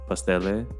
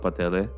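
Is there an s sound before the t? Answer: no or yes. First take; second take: yes; no. First: An s sound is heard before the t. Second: No s sound is heard before the t. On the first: This is the standard name for the dish. "It's called pastele" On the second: This is what the local community calls it. "we just call it patele. But it's spelled as pastele"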